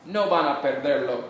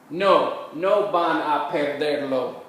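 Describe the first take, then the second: First: Said in the usual way. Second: Slow, measured Spanish for learners; slow model answer. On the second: Shown as a demonstration. Teacher modelling a practice answer for students, slowly and carefully. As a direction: draw out each word so learners can follow.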